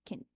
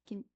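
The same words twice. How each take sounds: Both takes have the same delivery.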